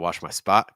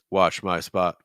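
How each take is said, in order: First: The pitch moves and varies across the phrase. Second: The pitch stays flat across the phrase. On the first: The speaker calls it right. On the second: The speaker calls it wrong.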